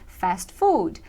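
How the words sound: It is said with English pronunciation. "em inglês... A gente tem que dizer fast food"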